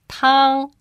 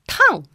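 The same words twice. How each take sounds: First: It has the first tone, high and level. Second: It has the fourth tone, sharply falling. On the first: It means soup. "The first tone, pronounced tang, means soup" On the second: It means burning hot. "And the fourth tone, tang, it's an adjective. It means burning hot"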